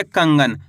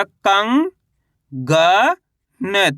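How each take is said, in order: First: कंगन as one whole word, falling in pitch; कंगन read in one piece, settling downward; joined-up word. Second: कंग, ग, न as separate syllables with pauses; कंग stretched and rising, then ग, then न. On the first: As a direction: blend कंगन together without breaks. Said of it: "कैसे पढ़ेंगे". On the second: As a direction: sound out कंग, ग, न for a learner. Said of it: "अब उच्चारण किस तरीके से करेंगे". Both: Shown as a demonstration.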